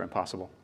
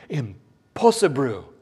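First: Said in the usual way. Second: Slow, hammed-up Japanese accent; mock Japanese accent. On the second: Preacher mocking our reaction to "perfect", mock Japanese accent. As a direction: draw it out in a joke Japanese accent. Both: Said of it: "which is Japanese for impossible".

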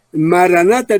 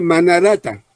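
First: Maranata said correctly, ma-ra-na-ta. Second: Manarata with the syllables swapped, ma-na-ra-ta; botched Maranata. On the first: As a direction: say Maranata with the syllables in the right order. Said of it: "en vez de decir Maranata, dice Manarata". (Maranata pronunciado correctamente, ma-ra-na-ta) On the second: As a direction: trip over it as a slip of the tongue, Manarata. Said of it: "en vez de decir Maranata". (Manarata, sílabas cambiadas por error) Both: Shown as a demonstration.

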